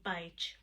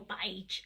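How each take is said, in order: First: Said in the usual way. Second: Beige in an Essex accent. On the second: Shown as a demonstration. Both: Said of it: "as they like to say it in the full Essex accent".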